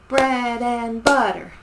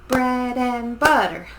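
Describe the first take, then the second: No difference in how they are said.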